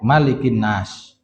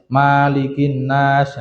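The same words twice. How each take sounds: First: The vowel after the M is kept short. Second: The vowel after the M is drawn out long. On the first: The speaker calls it right. "Bacanya itu pendek" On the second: The speaker calls it wrong. "itu perlu dinasihati"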